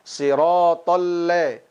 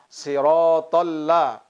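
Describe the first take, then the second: First: The vowel in 'la' shifts toward an 'e' sound. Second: The vowel in 'la' is a clear open 'a'. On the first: The speaker calls it wrong. "Jangan sampai kita membacanya sirotol le" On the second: The speaker calls it right. "Pelafasan la harus benar-benar bunyinya fathah"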